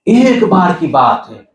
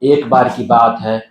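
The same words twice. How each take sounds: First: The line is told in an expressive, animated voice. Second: The line is told in a flat, plain voice. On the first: The story is told with expression. The speaker calls it right. "ऐसे बोल रही है।" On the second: The story is told without expression. The speaker calls it wrong. "वो कहानी ऐसे नहीं बोल रही है।"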